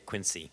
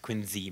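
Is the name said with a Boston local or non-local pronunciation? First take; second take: non-local; Boston local. First: It is said in a non-Boston way. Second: It is said the Boston local way.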